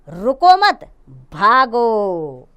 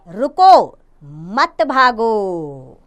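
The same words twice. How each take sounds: First: There is a pause after मत. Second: There is a pause after रुको.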